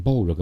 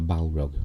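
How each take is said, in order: First: "Balrog" with a long, rounded "bawl" first syllable; first pronunciation option. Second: "Balrog" with a short, open "a"; second pronunciation option. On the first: Host unsure how to say it, "Balrog" as "BAWL-rog". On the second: Host weighing pronunciations, "Balrog" as "BAL-rog". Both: Shown as a demonstration. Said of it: "How do you say, how do you say".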